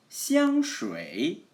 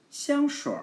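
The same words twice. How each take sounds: First: Said in the usual way. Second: 香水 higher, with 水 curled into "shuir"; erhua ending. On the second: Shown as a demonstration. Teacher shows the more countrified-sounding variant, erhua r on 香水. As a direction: end 香水 on a tongue-curled r. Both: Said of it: "여기서 알화 붙이면은".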